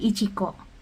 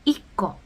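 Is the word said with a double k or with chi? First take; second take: with chi; double k. First: The word keeps the full chi before ko. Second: The chi is dropped and the k is doubled. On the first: The speaker calls it wrong. "bukan ichiko" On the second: The speaker calls it right.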